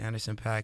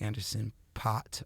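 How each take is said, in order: First: The last name has the vowel of 'pack'. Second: The last name has the vowel of 'pot'. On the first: The speaker calls it right. "I like to pronounce it Anderson Pack" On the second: The speaker calls it wrong. "doesn't get uh, mixed up with like [name]"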